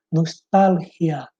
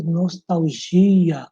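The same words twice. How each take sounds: First: "Nostalgia" slow, stressed on TAL, Spanish throaty g; Spanish "Nostalgia", nos-TAL-hia; Spanish pronunciation. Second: "nostalgia" drawn out, stressed on GI; Portuguese pronunciation. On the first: Teacher showing the Spanish word, stress on TAL. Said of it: "aqui em espanhol". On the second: Teacher contrasting Portuguese, long stress on GI. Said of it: "em português". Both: Shown as a demonstration.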